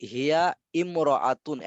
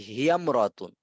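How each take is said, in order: First: Slow "হিয়া ইমরাতুন", the initial "i" fully sounded; separated pronunciation. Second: "হিয়ামরাতুন" as one word, alif silent; joined pronunciation. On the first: Teacher shows the expected form, "হিয়া ইমরাতুন" slow and unjoined. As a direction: say "হিয়া ইমরাতুন" slowly as two separate words. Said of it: "এমন হওয়ার কথা ছিল না". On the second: Teacher gives student the correct reading, "হিয়ামরাতুন" run together. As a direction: glide straight from হিয়া into "mra" in "হিয়ামরাতুন". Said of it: "কিন্তু এটা হবে". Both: Shown as a demonstration.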